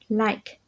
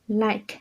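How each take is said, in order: No difference in how they are said.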